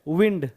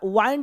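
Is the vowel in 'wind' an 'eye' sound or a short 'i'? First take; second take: short i; eye. First: The vowel is a short 'i' sound. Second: The vowel is a long 'eye' sound. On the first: The speaker calls it right. "इसको बोलते हैं विंड" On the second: The speaker calls it wrong. "वाइंड नहीं"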